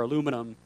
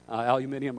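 First: Aluminum said the American way, uh-LOO-mi-num; alternate pronunciation. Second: Aluminum said the British way, al-yoo-MIN-ee-um; alternate pronunciation. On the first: Preacher correcting himself on the boat, aluminum pronounced uh-LOO-mi-num. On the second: Preacher checking the word for his boat, aluminum pronounced al-yoo-MIN-ee-um. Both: Shown as a demonstration. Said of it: "get the right pronunciation here".

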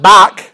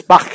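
First: "Bach" ending in a hard K, like "bock"; wrong hard-K Bach. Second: "Bach" ending in a raspy kh fricative; throaty German Bach. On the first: Teacher showing the mistake, "Bach" closed on hard K. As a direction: stop the end of "Bach" with a K. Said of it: "it's not Bach". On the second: Teacher correcting the composer's name, "Bach" with throaty kh. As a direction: let the end of "Bach" scrape in the throat, no K. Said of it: "that C H is supposed". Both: Shown as a demonstration.

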